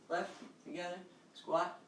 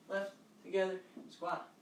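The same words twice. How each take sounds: The two takes are said the same way.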